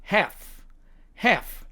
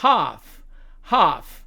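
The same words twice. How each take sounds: First: American "half", front a, silent l; American demo of "half"; American accent. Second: British "half" with long ah; British demo of "half"; British accent. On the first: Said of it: "미국식 발음으로는". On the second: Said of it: "영국식 발음으로 가면". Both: Shown as a demonstration.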